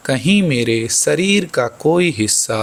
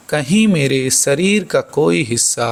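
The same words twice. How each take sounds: The two takes are said the same way.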